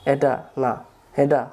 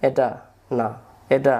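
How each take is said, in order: Both takes have the same delivery.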